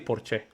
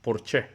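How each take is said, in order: First: It is pronounced the way Spanish speakers do. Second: It is pronounced the way Spanish speakers do.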